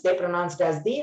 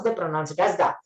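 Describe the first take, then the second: First: THE pronounced "thee", as before vowels; THE rhyming with "see". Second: THE pronounced "tha", as before consonants; THE ending in "ah", not "ee". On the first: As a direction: say THE with a long ee. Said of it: "Before vowel sounds". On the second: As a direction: say THE with an open "uh" vowel. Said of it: "before consonant sounds". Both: Shown as a demonstration.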